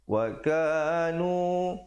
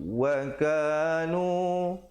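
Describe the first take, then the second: The two takes are said the same way.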